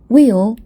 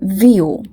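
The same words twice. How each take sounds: First: The word begins with a w sound. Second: The word begins with a v sound.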